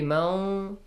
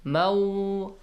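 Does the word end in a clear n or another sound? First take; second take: another sound; another sound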